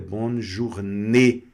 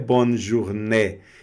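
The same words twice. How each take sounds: First: The final vowel is closed. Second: The final vowel is open. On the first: The speaker calls it right. "Então você vai pronunciar fechado" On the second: The speaker calls it wrong. "não é bonne journée"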